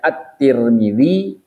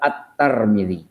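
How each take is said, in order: First: The first syllable of the name has vowel i. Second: The first syllable of the name has vowel a. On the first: "boleh At-Tir" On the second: "boleh At-Tar"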